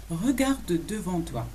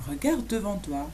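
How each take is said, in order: First: "Regarde devant toi" slowly, each word separated; measured, drawn-out language demonstration; slow model. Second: Said in the usual way. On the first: Shown as a demonstration. Teacher models "look ahead" for learners, slowly.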